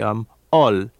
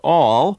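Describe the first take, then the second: First: The L sound is nasal. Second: The L sound is plain, not nasal. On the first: "they will give a very nasal L" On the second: "whereas I would say"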